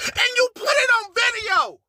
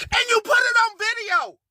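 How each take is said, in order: First: High sob-shout with stress on it; crying shout. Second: High, stress on put, no sob; high disbelief. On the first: To the liar on video, a crying shout. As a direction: wail the accusation through tears. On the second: To the liar on video, high stunned repeat. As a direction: say it again, punching put. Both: Real, not acted.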